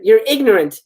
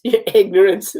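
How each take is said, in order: First: Higher-pitched indignant retort; scolding. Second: Laughing while repeating the line; amused repeat. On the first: A narrator's reading. Sister scolding her teasing brother, indignant. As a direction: tell him off, lightly acted. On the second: Real, not acted. Reader tickled by the script's line, laughing. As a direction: echo it through a laugh.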